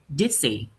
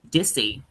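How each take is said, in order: First: The two words run together as one. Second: The two words run together as one.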